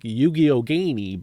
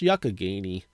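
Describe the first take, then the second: First: The name is sounded out literally, letter by letter. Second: The name is said in its usual spoken form. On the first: The speaker calls it wrong. "It looks like" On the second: The speaker calls it right. "but it's actually pronounced"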